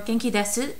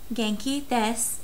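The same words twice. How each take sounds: First: The final u of desu is pronounced. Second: The final u of desu is dropped.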